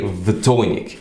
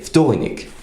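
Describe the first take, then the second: First: The word begins with a voiced V sound. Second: The word begins with a voiceless F sound. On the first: The speaker calls it wrong. "you don't say vtornik" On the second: The speaker calls it right. "you say vtornik"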